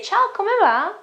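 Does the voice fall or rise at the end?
rise. The voice rises at the end. It sounds like a question. The speaker calls it right. "I'd say"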